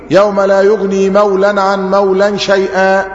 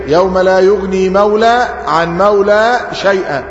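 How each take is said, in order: First: مولى said with nunation, mawlan, merging into عن; tajweed reading. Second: مولى said without nunation, ending on a plain long a; grammatical reading. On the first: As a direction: read مولى عن مولى as mawlan ʕan mawlan. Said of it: "النطق بتاعنا تجويدي". (قراءة تجويدية: مولى بالتنوين) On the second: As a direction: read مولى عن مولى as mawla ʕan mawla, no final n. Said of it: "ده النطق الإعرابي". (قراءة إعرابية: مولى بلا تنوين) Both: Shown as a demonstration.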